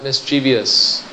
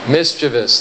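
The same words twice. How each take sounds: First: The word is said with four syllables. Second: The word is said with three syllables. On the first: The speaker calls it wrong. "Don't let that I creep in there" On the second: The speaker calls it right. "It's a three-syllable word"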